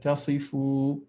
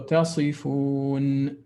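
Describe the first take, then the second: First: The word ends on a vowel, without n. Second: The word ends with a clear n sound. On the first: The speaker calls it wrong. "you just said tasifu" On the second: The speaker calls it right. "I wanted you to pronounce the noon clearly"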